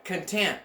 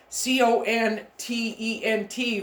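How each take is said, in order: First: "content" said as con-TENT, stress on the second syllable; corrected stress. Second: "content" said as CON-tent, stress on the first syllable; wrong stress. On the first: Teacher giving students the corrected reading, stress moved. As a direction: land the stress on the end of "content". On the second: Teacher showing how she misread the word, wrong stress. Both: Shown as a demonstration. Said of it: "I had the emphasis on the incorrect syllable".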